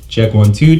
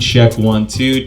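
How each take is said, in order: First: The voice has strong bass and extra body. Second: The voice has no bass, only highs and mids. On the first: "You're hearing a lot more bass or body in my voice there" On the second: "You're not hearing any of that low end or bass, mostly high and mid frequencies"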